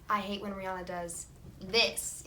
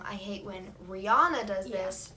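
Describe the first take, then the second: First: The stress falls on the word this. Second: The stress falls on the word Rihanna. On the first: The complaint targets the behavior, not the person. The speaker calls it right. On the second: The complaint targets the person. The speaker calls it wrong. "move the emphasis from"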